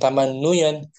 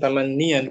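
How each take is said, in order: First: The vowel after the double n is 'u'. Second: The vowel after the double n is 'i'. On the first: The speaker calls it wrong. "bukan tamannuyan" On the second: The speaker calls it right. "lebih ringan tamannian kan?"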